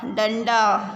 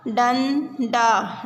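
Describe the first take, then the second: First: Said in the usual way. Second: डंडा drawn out very slowly, syllable by syllable; slow syllable reading. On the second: Shown as a demonstration. Teacher sounds out डंडा for children, very slowly. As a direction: stretch out डंडा for the class to follow. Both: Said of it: "शब्दों को पढ़ेंगे".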